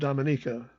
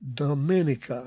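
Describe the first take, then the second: First: Said the way the island's locals say it. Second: Said the way the visiting operators said it. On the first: This is how the island's people say the name. The speaker calls it right. "like the locals say" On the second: This is how outsiders say the name. The speaker calls it wrong. "pronounced the island Dominica"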